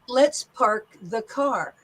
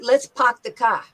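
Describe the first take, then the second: First: It is said in a standard American accent. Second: It is said in a New York accent. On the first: "in standard American dialect, I would say" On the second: "But a New Yorker would say"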